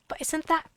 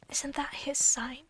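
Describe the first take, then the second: First: Said in the usual way. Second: Slow whispered question about "his"; whispering. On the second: Shown as a demonstration. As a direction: whisper it secretly.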